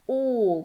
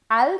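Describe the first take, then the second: First: The vowel is a rounded aw sound. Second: The vowel is an open, unrounded ah sound. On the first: The speaker calls it right. "como si fuera una O" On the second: The speaker calls it wrong. "al no"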